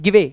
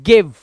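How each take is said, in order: First: A vowel sound is pronounced after the final v. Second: The word ends on the v with no vowel. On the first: The speaker calls it wrong. "जी आई वी ई not गिवे" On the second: The speaker calls it right. "ई का उच्चारण नहीं करते"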